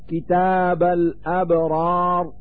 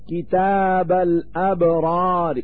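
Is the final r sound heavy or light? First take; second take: heavy; light. First: The final r is heavy, with no vowel. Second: The final r is light, with a faint vowel. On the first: "هذا في حال السكون" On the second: "هذا هو الروم"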